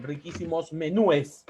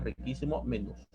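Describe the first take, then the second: First: "menúes" slow, with -es after stressed ú; incorrect plural menúes. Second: "menús" low and soft, only s after ú; correct plural menús. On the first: Teacher's faulty restaurant example, "menúes" slowly ending in ú-es. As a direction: draw out "menúes" with a separate final es. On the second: Teacher correcting the restaurant example, "menús" softly ending in plain s. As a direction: drop the voice on "menús", no e before s. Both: Shown as a demonstration.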